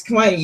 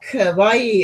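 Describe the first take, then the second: First: KAWAII run together and falling; corrected pronunciation. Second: KAWAII with KA set apart before a long WAII; wrong pronunciation. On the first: Friends correcting the learner, KAWAII kept compact. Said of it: "it's kawaii". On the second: Friends showing the mistake, KAWAII drawn apart. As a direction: hold KAWAII apart as ka-wai-ee. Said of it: "it's not". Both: Retold or imitated.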